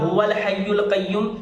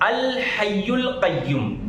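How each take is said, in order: First: After a pause, it begins with the sound 'huwal'. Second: After a pause, it begins with the sound 'al'. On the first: The speaker calls it wrong. "तो ये गलती होती है" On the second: The speaker calls it right. "रुकने के बाद अलिफ लाना है"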